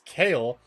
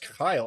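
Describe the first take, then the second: First: The vowel sounds like "ay" in day. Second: The vowel sounds like "eye" in my. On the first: The speaker calls it wrong. "three separate pronunciation guides that told me it was Kale" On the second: The speaker calls it right. "oh, it's pronounced Kyle"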